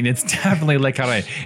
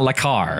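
First: The name ends with a final 'ray' syllable. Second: The name ends abruptly on 'car'. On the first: The speaker calls it right. "it's definitely Le Carré" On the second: The speaker calls it wrong. "It's not Le Car"

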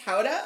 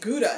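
First: The name is said the local native way. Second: The name is said the usual American way. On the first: The speaker calls it right. "it's pronounced Howda" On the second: The speaker calls it wrong. "I had been saying Gouda"

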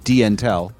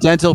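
First: The name begins with a separate 'dee' sound. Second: The name begins with a 'den' sound. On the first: The speaker calls it right. "Oh, like D-Intel" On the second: The speaker calls it wrong. "I've been calling it dental for years. My bad"

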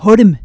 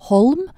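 First: The L is a thick, flapped L. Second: The L is a clear, slender L. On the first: This is how everyone else says the name. The speaker calls it wrong. "og ikke Holm, som alle de hine sier" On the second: This is how the name's owner wants it said. The speaker calls it right. "navnet skal uttales Holm ... Med slank L"

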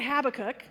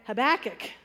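First: The stress is on the first syllable. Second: The stress is on the second syllable. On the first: "with the emphasis on the hab" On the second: "with the emphasis on the second"

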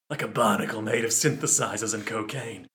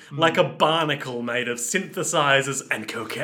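First: It is read in a dramatic put-on narrator voice. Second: It is read in the speaker's ordinary voice.

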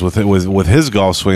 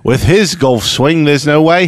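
First: It is said in the speaker's normal accent. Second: It is said in a put-on British accent.

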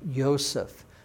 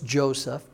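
First: The name begins with a Y sound. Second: The name begins with a J sound. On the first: "It's pronounced as a Y sound" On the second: "I know it's Joseph"

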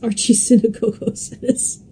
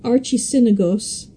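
First: The word has two 'go' syllables. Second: The word has only one 'go' syllable. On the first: The speaker calls it right. "it's archisynagogos" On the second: The speaker calls it wrong. "I want to eliminate one of the goes. I always want to call it archisynagos"

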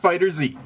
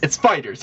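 First: The final Z is said as 'zee'. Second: The final Z is not said as 'zee'. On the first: The speaker calls it wrong. "it's not FighterZ" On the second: The speaker calls it right. "You don't pronounce the Z as a Z"

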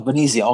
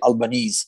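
First: It is said the Italian way, final E sounded. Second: It is said the American way, final E dropped.

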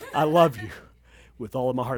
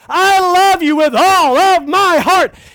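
First: It is said softly and romantically. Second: It is said loudly.

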